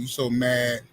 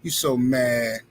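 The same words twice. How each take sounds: First: Said in the usual way. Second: Drawn out, very slow teasing; slow teasing taunt. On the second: Real, not acted. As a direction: stretch it to rub it in. Taunting a commenter.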